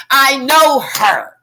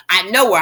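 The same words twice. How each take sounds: First: KNOW HER drawn out, higher and louder; emphatic insistence. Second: Said in the usual way. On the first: Acted. An acquaintance insisting on knowing her, emphatic and drawn out. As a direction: stretch "know her" slowly and push it up loud.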